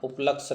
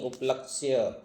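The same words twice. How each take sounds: First: उपलक्ष्य cut to up-laksh, without the y; wrong pronunciation. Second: उपलक्ष्य said up-lak-shya, y sounded; correct pronunciation. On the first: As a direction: drop the final ya from उपलक्ष्य. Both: Shown as a demonstration. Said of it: "उपलक्ष्य नहीं".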